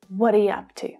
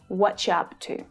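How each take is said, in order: First: The opening is said with a linked y sound and no ch sound. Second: The opening is said with a ch sound, as 'whatcha'. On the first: "So you really just hear you as the y sound" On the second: "where the ch ch consonant sound is used"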